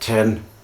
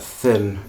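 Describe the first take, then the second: First: It is said in an Irish accent. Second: It is said in a standard British accent.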